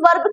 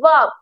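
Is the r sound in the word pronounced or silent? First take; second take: pronounced; silent. First: The r sound is clearly pronounced. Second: The r sound is left silent. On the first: The speaker calls it wrong. "इसे वैसे तो हम वर्ब कह देते हैं" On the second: The speaker calls it right. "पर सही में से वर्ब, यानी कि यहाँ पर आर साइलेंट होता है"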